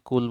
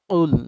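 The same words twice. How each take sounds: First: The word is pronounced in the everyday way. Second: The word is pronounced in the careful way. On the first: The speaker calls it wrong. "Normally কুল বলি" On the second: The speaker calls it right. "এই কুল এরকম উচ্চারণ"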